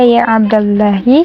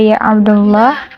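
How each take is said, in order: First: The name ends with a short i vowel. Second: The name ends on a consonant. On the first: The speaker calls it right. "kenapa di sini dia ya Abdullahi" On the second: The speaker calls it wrong. "tidak ya Abdullah"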